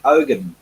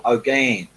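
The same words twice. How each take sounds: First: "Ogan" with stress up front; first pronunciation attempt. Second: "Ogan" with a longer second syllable; alternative pronunciation. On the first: Thanking new patron Kathy, "Ogan" tried as OH-gun. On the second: Unsure of patron's surname, "Ogan" retried as oh-GAN. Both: Shown as a demonstration. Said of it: "or Ogan".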